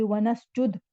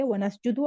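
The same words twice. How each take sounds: First: नसजुद closed on the d; stopped ending. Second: नसजुदु with final "u" sounded; linked form नसजुदु, open final vowel; flowing-reading ending. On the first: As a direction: end नसजुद without a final vowel. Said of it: "रवानी से अगर आप पढ़ रहे हैं". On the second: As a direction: say नसजुदु with a short u at the end. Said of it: "रवानी से अगर आप पढ़ रहे हैं फिर ठीक है". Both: Shown as a demonstration.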